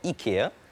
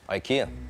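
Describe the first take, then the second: First: The name has a Swedish pronunciation. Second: The name has an English pronunciation. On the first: "In Swedish, it's, it's called IKEA" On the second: "but in, in English, it's IKEA"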